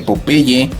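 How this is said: It is said with a Mexican Spanish pronunciation. "en México lo pronunciamos precisamente Popeye"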